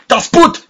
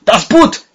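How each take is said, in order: First: High shouted German cry. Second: Repeated high shouted cry; German shout. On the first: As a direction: yell it across the dark. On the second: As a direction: yell it again, more desperate. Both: Acted. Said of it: "cried a voice".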